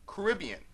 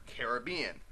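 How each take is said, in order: First: Caribbean as kuh-RIB-ee-un; Caribbean stressed on rib. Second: Caribbean as care-uh-BEE-un; Caribbean stressed on bee. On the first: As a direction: hit the second syllable of Caribbean. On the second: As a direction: hit the third syllable of Caribbean. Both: Shown as a demonstration. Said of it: "pronounce differently depending on the context".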